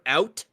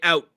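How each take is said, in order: First: The final T sound is pronounced. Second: It is said fast with the final T dropped. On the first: "we say the word out" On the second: "if you get a Canadian going fast enough, he'll just say out"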